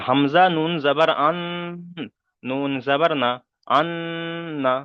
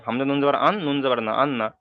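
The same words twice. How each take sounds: First: Long hummed n at the end of আন; with ghunnah. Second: Quick spelling, আন না with a short unhummed n; without ghunnah. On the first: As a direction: hold the ন of আন through the nose before না. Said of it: "একালি পরিমাণ গুণনা করতে হবে". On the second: Teacher showing the mistake, আন না said quickly without nasal hum. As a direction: rattle it off, no hold on the ন of আন. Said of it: "তাহলে এখানে ভুল হবে". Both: Shown as a demonstration.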